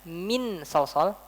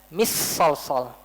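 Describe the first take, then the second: First: The n sound is fully clear. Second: The n sound merges into the next sound. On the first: "Saya nggak baca min sol sol" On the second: "saya nggak baca mis sol sol"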